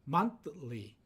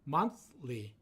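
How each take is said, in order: Both takes have the same delivery.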